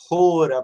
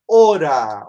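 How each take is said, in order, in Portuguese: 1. A palavra começa com um som de "h" aspirado. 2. A palavra começa direto com a vogal.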